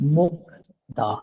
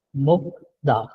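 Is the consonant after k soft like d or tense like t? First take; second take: soft d; soft d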